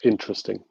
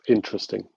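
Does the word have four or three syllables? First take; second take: three; three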